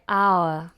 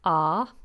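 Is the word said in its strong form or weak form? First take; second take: strong; weak. First: It is said with a long gliding vowel. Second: It is said with one plain vowel. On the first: "when it's in a strong position, we say our" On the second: "when it's weak, it's pronounced exactly the same as this one"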